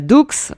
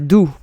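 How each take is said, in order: First: It is said with an English accent. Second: It is said with a French accent. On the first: The speaker calls it wrong. "a blogger or vlogger uh, saying uh" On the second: The speaker calls it right. "in French, uh, you pronounce it"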